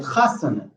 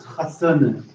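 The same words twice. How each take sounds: First: "chasane" stressed on CHA, two weak syllables after; antepenultimate stress. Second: "chasane" with stress moved onto SA, slow; wrong penultimate stress. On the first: Teacher showing the rule, "chasane" stressed on CHA. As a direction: hit the first syllable of "chasane". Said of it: "the anti-penultimate vowel". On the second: Teacher showing what not to say, "chasane" stressed on SA. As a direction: hit the middle syllable of "chasane". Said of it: "Not chasane or chasen". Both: Shown as a demonstration.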